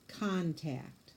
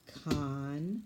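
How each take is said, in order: First: Said in the usual way. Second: Contact split into two clipped syllables, CON then TACT; staccato. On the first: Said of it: "Say it". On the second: Shown as a demonstration. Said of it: "hit the table for each syllable".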